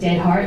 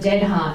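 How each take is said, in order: First: It is said in an American accent. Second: It is said in an Australian accent.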